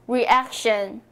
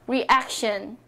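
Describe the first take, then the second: The two takes are said the same way.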